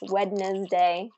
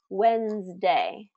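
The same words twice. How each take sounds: First: All three syllables are clearly pronounced. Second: A syllable is dropped, leaving two syllables. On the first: "how it should be pronounced, with three syllables" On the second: "native English speakers reduce it to"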